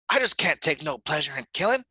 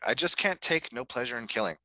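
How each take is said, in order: First: It is read with a Southern drawl. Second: It is read in a plain, neutral voice.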